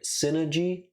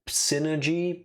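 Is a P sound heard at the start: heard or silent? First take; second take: silent; heard. First: The word starts with no P sound. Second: The word starts with a P sound. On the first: "says that the P is silent" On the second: "I do pronounce the P"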